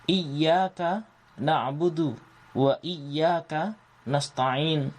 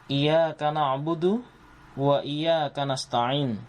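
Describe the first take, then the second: First: The y sound in iyyaka is held and doubled. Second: The y sound in iyyaka is short and single. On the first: Only to God we worship. The speaker calls it right. "ada tasjid" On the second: To the sun we worship. The speaker calls it wrong. "kita sering kita mengucapkan"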